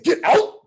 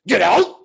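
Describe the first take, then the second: First: Much higher, louder shriek; creature's warning. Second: High, loud barked order; creature's warning. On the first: The thing warning him a second time, high loud shriek. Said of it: "It said". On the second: The thing in the woods warning him off, loud and high. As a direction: snap it out like a warning from the dark. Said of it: "something goes". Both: Retold or imitated.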